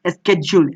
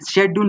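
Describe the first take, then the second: First: The word begins with an 'sk' sound. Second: The word begins with an 'sh' sound. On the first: The speaker calls it right. "वहां पे स्केड्यूल बोलना चाहिए" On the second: The speaker calls it wrong. "शेड्यूल नहीं होता है"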